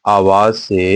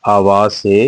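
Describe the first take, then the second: No difference in how they are said.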